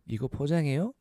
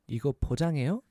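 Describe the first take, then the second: No difference in how they are said.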